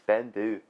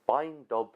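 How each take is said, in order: First: The word ends with a vowel sound. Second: The word ends with a b sound. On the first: The speaker calls it right. "the pronunciation is just Bendu" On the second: The speaker calls it wrong. "Some would pronounce this Beindob"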